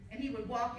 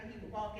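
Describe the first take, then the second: First: He lifted and pushed a little louder; rising emphasis. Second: Walk said evenly, settling down as the chain ends; fading close. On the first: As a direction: start the repeated chain strong on he. Building rhythmic repetition of walking. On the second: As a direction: let walk fall, winding the list down. Repetition closing, winding down. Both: Acted.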